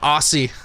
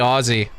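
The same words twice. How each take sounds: First: It is said the way Americans say it. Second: It is said the way Australians want it. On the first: The speaker calls it wrong. "I can't stand it when you Americans say Aussie" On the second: The speaker calls it right. "I've had to say Aussie because that's that's what they want"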